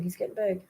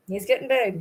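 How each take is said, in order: First: Much softer he's getting big; trailing repeat. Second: Said in the usual way. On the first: Real, not acted. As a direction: let it fade almost to nothing.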